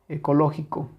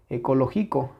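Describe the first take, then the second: Both takes have the same delivery.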